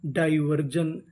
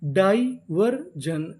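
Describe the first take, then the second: First: Said in the usual way. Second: diversion stretched very slowly, syllable by syllable; drawn-out demo. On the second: Shown as a demonstration. Teacher slowly sounding out the whole word for students. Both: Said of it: "पूरी meaning".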